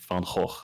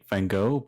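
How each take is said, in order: First: The name is said with a Dutch pronunciation. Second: The name is said with an American pronunciation. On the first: "in the Netherlands we just say Van Gogh" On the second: "in America you'd, you'd say Van Gogh"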